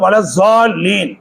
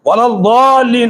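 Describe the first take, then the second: First: The middle consonant is a z-like sound. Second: The middle consonant is a heavy d-like sound. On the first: The speaker calls it wrong. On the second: The speaker calls it right.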